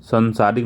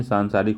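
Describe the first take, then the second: First: Said in the usual way. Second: सांसारिक with a long सां; correct pronunciation. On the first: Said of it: "नहीं". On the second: Shown as a demonstration. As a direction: say सांसारिक with a long first vowel. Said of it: "सांसारिक होता है". (सांसारिक, लंबा सां)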